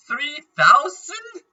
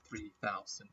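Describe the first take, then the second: First: High, slow, astonished rise; surprised. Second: Low, soft trailing mutter; quiet. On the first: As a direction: stretch it out in disbelief. Reacting to item price. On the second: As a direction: drop it under the breath. Same number, deflated aside. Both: Real, not acted.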